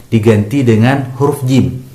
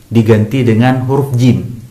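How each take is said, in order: Both takes have the same delivery.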